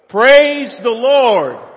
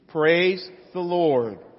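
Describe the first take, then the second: First: It is said loudly, as an exclamation. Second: It is said in a calm, plain way.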